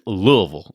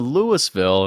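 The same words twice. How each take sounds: First: The first part has no s sound. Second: The first part has an s sound. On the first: This is how locals say the city's name. The speaker calls it right. "there's no S in there whatsoever" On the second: This is how outsiders say the city's name. The speaker calls it wrong. "everybody on the plane goes, "Boo, boo.""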